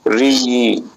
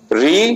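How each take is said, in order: First: The vowel is held about twice as long. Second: The vowel is short and quick. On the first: "इसे दुगना time देकर बोला जाएगा" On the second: "उस पहले की अपेक्षा"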